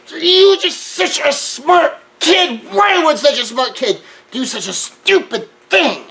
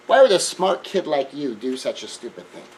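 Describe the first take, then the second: First: High, loud and slow but kind; heated mother who still builds her son up; intense mother. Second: A mild, calm question from a mother; lightly voiced mother, asking without heat. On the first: Retold or imitated. Mother upset with her son yet praising him, high and loud. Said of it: "even in her emotional intensity". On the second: Mother calmly asking her son why he did it, mild and even. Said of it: "she wasn't quite so calm about that".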